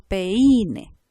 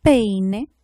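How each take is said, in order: First: "peine" wrongly stressed on the I, pe-Í-ne; drawn-out "peine" with the accent moved onto the I; misplaced stress. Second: "peine" with the stress on PEI, one gliding syllable; stress on first syllable. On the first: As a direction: break "peine" into pe-Í-ne, leaning on the I. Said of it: "nosotros no decimos peine". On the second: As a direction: say "peine" as PEI-ne, leaning hard on the E. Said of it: "nosotros decimos". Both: Shown as a demonstration.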